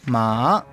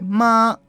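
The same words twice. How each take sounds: First: Said with the tone that means horse. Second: Said with the tone that means mother. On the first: It means horse. "caballo ma" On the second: It means mother. "mamá se dice ma"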